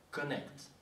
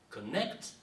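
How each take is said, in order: First: "connect" set apart, falling at the end; measured "connect", showing its opening CO; sounding out CO. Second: "connect" with NECT punched and rising; "connect", light CO then a lifted NECT; stress off first syllable. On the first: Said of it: "c'est la sonorité". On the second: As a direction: hit the second syllable of "connect". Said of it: "l'accentuation ne se fait jamais sur la première syllabe". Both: Shown as a demonstration.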